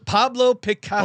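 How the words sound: It is said in a lisping Spanish accent.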